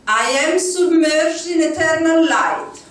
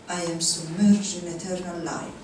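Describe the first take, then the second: First: It is spoken in a loud voice. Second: It is spoken at a normal volume. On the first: "Loud voice" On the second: "normal voice"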